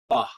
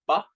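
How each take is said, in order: First: The syllable is said with a regular tone. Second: The syllable is said with a high tone. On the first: "This is the regular sound" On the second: "the next line will be the high tones"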